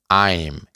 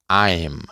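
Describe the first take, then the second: The two takes are said the same way.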